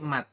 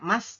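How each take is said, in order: First: The word ends with a T sound. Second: The word ends with an S sound. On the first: The speaker calls it right. "tapi mat" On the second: The speaker calls it wrong. "bukan mas"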